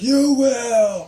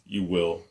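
First: The words are shouted loudly. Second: The words are said quietly, without shouting. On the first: The speaker is being over the top. The speaker calls it wrong. "scream it out like" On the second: The speaker knows the listener can hear. The speaker calls it right. "he says it almost knowing that he can hear him"

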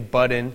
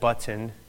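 First: The middle T is said like a D. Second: The middle T is said as a T.

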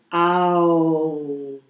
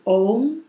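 First: The vowel glides from 'a' to 'u'. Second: The vowel is a single plain 'o' sound. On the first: "je spreekt het echt uit als Aum" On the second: "we zeggen ook wel Om"

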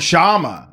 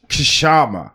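First: The name starts with a sh sound, no K. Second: The name starts with a K sound. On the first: The speaker calls it right. "the K is silent" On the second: The speaker calls it wrong. "I thought it was Kashama"

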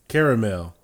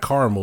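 First: The word is said with three syllables. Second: The word is said with two syllables. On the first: The speaker calls it right. "That's how you say that" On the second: The speaker calls it wrong. "not caramel"

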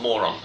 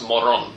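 First: The name is said like the English word. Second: The name is said the Spanish way. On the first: It sounds like the English insult. The speaker calls it wrong. "not Moron" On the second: It is the name of the team's town. The speaker calls it right. "it's pronounced Moron"

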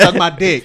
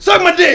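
First: It is said in a regular, casual tone. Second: It is said aggressively, like a wrestler.

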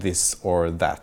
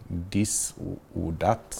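First: The words start with a soft th sound. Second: The words start with a hard d sound. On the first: The speaker calls it right. "Istället för att säga this or that" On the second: The speaker calls it wrong. "så säger de dis och dat"

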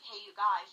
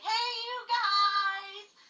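First: It is said in a plain everyday voice. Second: It imitates the Goonies movie line's voice.

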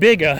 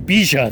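First: It sounds like the two words 'big' and 'A'. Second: It sounds like one word, 'bee-ja'. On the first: The speaker calls it wrong. "they pronounce it not Big A" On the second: The speaker calls it right. "But it's actually Bija, they say"

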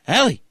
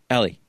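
First: The name is called loudly. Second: The name is called softly.

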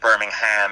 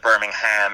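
First: It is said fully in an American way. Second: It is said fully in an American way.

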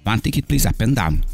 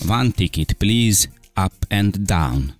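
First: It is spoken with a smoother American accent. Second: It is spoken with a heavy Hungarian accent. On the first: The listener understood it at once. The speaker calls it right. "szebben, ugye New York-iasabban" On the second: The listener could not understand it. The speaker calls it wrong. "a lőzinci akcentus nem olyan vágják"

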